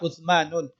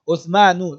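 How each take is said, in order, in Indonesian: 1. Kata ini diakhiri dengan bunyi n tambahan. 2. Kata ini diakhiri dengan vokal u biasa.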